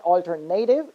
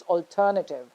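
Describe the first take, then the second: First: "alternative" as al-ter-NAY-tiv; wrong stress. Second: "alternative" as al-TER-nuh-tiv; correct stress. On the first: Teacher repeating the mistake, "alternative" with stressed NAY. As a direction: make "alternative" end in a stressed "native". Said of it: "So it's not". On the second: Teacher repeating the correction, "alternative" stressed on TER. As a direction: hit TER in "alternative", reduce the rest. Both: Shown as a demonstration.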